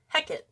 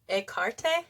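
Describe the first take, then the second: First: The name is pronounced in the Shakespearean way. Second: The name is pronounced in the Greek way. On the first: "in Shakespearean, it's Hecate" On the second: "in Greek, they say to pronounce it like Ekarte"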